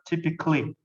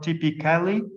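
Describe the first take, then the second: First: The ending is reduced to a short 'cli'. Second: The ending is said in full as 'ca-li'. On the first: The speaker calls it right. "pronounced as "cli."" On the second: The speaker calls it wrong. "not typically"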